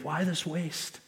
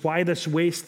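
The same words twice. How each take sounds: First: Quietly scoffing disciples; muttered indignation. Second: Indignant objection. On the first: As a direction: mutter it under your breath with disdain. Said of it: "they were indignant, saying". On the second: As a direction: toss it out as an accusing complaint. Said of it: "they say". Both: Retold or imitated.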